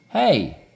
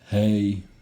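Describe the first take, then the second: First: The pitch rises on the word. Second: The pitch stays flat on the word.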